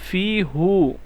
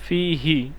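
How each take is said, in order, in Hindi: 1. सर्वनाम का उच्चारण 'u' स्वर के साथ होता है। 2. सर्वनाम का उच्चारण 'i' स्वर के साथ होता है। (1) "फ़ी हु नहीं बनेगा" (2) "बल्कि फ़ी ही"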